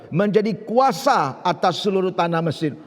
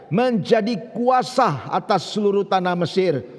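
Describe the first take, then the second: The two takes are said the same way.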